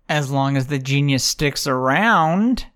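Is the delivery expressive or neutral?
expressive. It is said with strong, pointed inflection. The reader seems to voice a personal opinion. The speaker calls it wrong. "I put too much inflection in that. It sounded like that was my own opinion"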